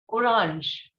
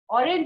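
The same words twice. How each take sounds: First: The word is pronounced the French way. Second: The word is pronounced the English way. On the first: "In French, it is orange" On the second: "Orange is in English"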